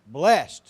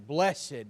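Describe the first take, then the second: First: The word is said as one syllable. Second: The word is said as two syllables.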